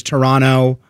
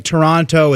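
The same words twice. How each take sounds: First: Toronto with the second T dropped, "Torono"; local pronunciation. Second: Said in the usual way. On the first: Shown as a demonstration. Co-host showing how locals say the city, Toronto without its second T. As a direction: say Toronto as "tuh-RON-oh". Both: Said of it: "a city that's pronounced kind of funny".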